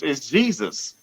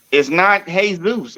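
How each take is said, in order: First: "Jesus" said jee-zus, English way, softer. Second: "Jesus" said hay-soos, Spanish way. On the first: Correcting the pronunciation, says Jesus the English way. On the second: Correcting the pronunciation, says Jesus the Spanish way. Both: Shown as a demonstration.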